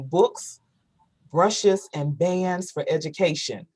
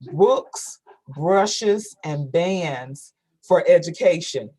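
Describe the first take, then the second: First: The phrase is said fast. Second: The phrase is said slowly.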